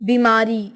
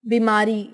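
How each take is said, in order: The two takes are said the same way.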